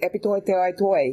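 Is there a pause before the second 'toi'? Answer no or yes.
no. The words run on without a pause. The tongue gets tangled on the sounds. The speaker calls it wrong. "if you say epitoi, teoi, toi, you're gonna ... lose your ... blah, blah ... with your tongue"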